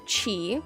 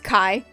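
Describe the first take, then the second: First: The name begins with a CH sound. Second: The name begins with a K sound. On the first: The speaker calls it wrong. "most people pronounce it Chi" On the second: The speaker calls it right. "my name is pronounced Kai"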